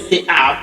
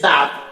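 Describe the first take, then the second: First: It is said as two separate words. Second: It is said as one merged syllable. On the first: The speaker calls it wrong. "We don't say te app" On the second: The speaker calls it right. "we say tap"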